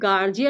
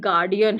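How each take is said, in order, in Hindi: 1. बीच का व्यंजन नरम 'j' की आवाज़ है। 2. बीच का व्यंजन कड़ा 'd' की आवाज़ है। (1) "बट ये गार्जियन नहीं है" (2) "ये गार्डियन है"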